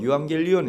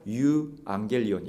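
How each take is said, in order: First: The word runs together with no break. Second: A slight break splits the word in two. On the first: "우리가 보통 이제 유앙겔리온, 유앙겔리온 이렇게 부르는데" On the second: "정확히 이 발음을 넣어서 부른다면은 유앙겔리온, 약간 이렇게 쉬는, 예, 이 사이가 있습니다"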